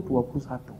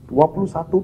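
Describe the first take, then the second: First: A quieter, lower repeat of "dua puluh satu"; soft echo. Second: Stated firmly at normal strength, the first "Dua puluh satu"; a firm first statement of "Dua puluh satu"; emphatic first call. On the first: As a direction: let "dua puluh satu" fall away into a murmur. Echoing the number softly. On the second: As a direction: set down "Dua puluh satu" plainly and clearly. Repeating the number for emphasis. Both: Acted.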